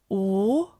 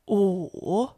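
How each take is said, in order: First: The pitch rises from mid to high. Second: The pitch dips low, then rises.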